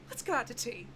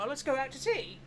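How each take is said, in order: First: It is said in the speaker's plain accent. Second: It is said in an attempted Cockney accent.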